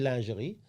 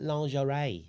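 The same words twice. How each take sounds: First: The word is said with a French pronunciation. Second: The word is said with an English pronunciation. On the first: The speaker calls it right. "We say lingerie" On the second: The speaker calls it wrong. "and then you call it lingerie"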